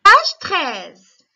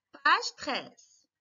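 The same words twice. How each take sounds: First: Calling out the page loudly to the class; loud announcement. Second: Said in the usual way. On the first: Real, not acted. Teacher to pupils, loudly calling out the page. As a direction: raise the voice to get the class's attention.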